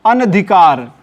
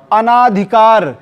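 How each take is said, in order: First: अनधिकार with a short, bare न; no long vowel after न in अनधिकार; corrected form. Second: अनाधिकार with a long आ after the न; misspelt form. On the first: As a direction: say अनधिकार as an-adhikaar. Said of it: "बनेगा क्या?". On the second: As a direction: stretch the ना in अनाधिकार. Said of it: "ना पे मात्रा ही नहीं रहेगा". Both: Shown as a demonstration.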